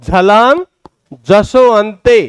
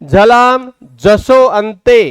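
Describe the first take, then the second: The two takes are said the same way.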